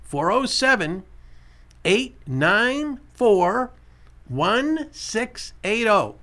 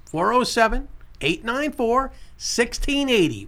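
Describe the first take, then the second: First: Very slow, digit-by-digit read-out; slow dictation, every digit separate; slow repeat. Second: Said in the usual way. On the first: Shown as a demonstration. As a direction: stretch out each digit of the number for callers. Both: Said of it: "I'll say it again".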